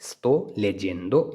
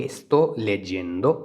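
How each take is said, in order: First: Slow model repeat. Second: Very slow, clear Italian; slow model phrase. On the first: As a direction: say Sto leggendo again slowly. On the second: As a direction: stretch Sto leggendo out for students. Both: Shown as a demonstration. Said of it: "तो उसको हम बोलेंगे".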